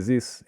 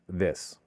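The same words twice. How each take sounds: First: The word is said with a French accent. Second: The word is said with a native English accent. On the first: The speaker calls it wrong. "French speakers have no hitches and say this" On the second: The speaker calls it right. "instead of this"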